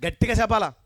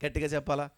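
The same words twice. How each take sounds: First: Loud call. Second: Said in the usual way. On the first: Shown as a demonstration.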